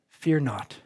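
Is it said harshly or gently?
gently. It is said softly as a comforting invitation.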